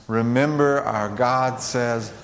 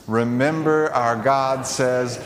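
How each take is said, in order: The two takes are said the same way.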